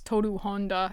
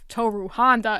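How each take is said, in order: First: The name is said with Japanese-style pronunciation. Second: The name is said with English-style pronunciation. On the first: "they go with the proper pronunciation" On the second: "instead of Toru Honda"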